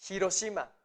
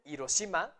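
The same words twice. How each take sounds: First: HIROSHIMA opened with an audible hissed h; H pronounced. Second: HIROSHIMA said as iroshima, with no h; H left silent. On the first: Teacher giving another example, h pronounced. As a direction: say HIROSHIMA with the h sounded before the i. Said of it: "Están pronunciando la H". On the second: Teacher warning that such a place does not exist, silent h. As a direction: start HIROSHIMA straight on the vowel i. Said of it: "Si ustedes dicen". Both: Shown as a demonstration.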